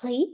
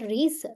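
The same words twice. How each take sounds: First: Riz said "ree", final z silent; correct French pronunciation. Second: Riz with the final z sounded; wrong pronunciation. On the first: Teacher shows students the right way, silent z. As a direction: riz with the last letter silent. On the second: Teacher shows students the wrong way, z sounded. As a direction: riz said wrongly, pronouncing the last letter. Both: Shown as a demonstration. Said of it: "last letter silent".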